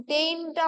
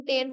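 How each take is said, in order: First: টেইনটা with a long gliding "ay-i", like "tain"; wrong vowel. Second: টেন with a plain short "e", as in ten; correct vowel. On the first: Teacher shows the wrong syllable, টেইনটা with a gliding "tain" vowel. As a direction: stretch the vowel in টেইনটা into a diphthong. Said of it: "হয় না". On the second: Teacher gives the right syllable, টেন with short "e". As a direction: say টেন short, without any glide. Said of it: "টেন হয়". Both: Shown as a demonstration.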